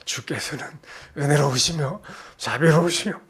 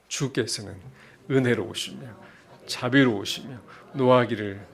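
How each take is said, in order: First: It is read in a mocking, sarcastic tone. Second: It is read in a plain, sincere tone.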